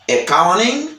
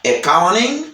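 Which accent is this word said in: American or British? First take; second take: American; American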